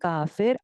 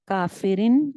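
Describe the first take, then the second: First: The word ends abruptly without the vowel ending. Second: The word ends with its full vowel ending. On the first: The reader stops on this word. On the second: The reading continues without a stop.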